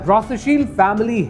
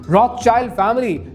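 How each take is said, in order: First: The name's second part sounds like 'shield'. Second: The name's second part sounds like 'schild' with 'child'. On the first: The speaker calls it right. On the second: The speaker calls it wrong.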